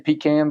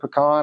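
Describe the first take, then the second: First: It is said with a Georgia pronunciation. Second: It is said with a Texas pronunciation.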